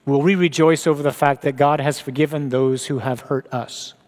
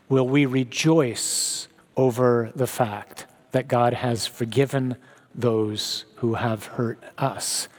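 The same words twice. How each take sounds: First: Said in the usual way. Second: "Will we rejoice" slowed right down and softer; slow, quiet repeat. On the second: Shown as a demonstration. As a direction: drag out "God has forgiven" and fade to a hush. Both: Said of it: "repeated slower".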